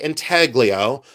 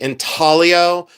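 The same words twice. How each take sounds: First: The G in the middle is sounded. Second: The G in the middle is silent. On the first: This is how people in Ohio say it. "we do pronounce the G. I say intaglio" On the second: This is how other people say it. "Some people say intaglio"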